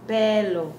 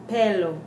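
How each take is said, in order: The two takes are said the same way.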